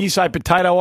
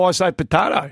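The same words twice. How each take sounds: First: "potato" with the middle vowel as in "day", po-TAY-to; "potato" as po-TAY-to, teasing the other way of saying it; potato said the American way. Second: "potato" with a broad middle vowel, po-TAH-to; "potato" as po-TAH-to, cheekily setting it against the other take; potato said the Australian way. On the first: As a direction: say "potato" the way the other person says it, rhyming with "tomato" in American speech. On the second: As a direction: say "potato" your own way, the open "ah" in the middle. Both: Shown as a demonstration.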